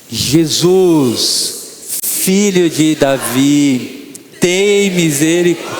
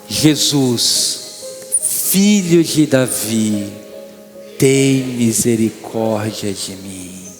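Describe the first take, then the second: First: It is said loudly. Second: It is said at normal volume.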